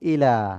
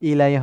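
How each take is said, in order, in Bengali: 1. শব্দটি সাধারণ দীর্ঘ 'a' দিয়ে শেষ হয়। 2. শব্দটির শেষে একটি যোগ করা 'ee' গ্লাইড আছে। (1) "লাম খাড়া জবর লা" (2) "ইলাই হয় না"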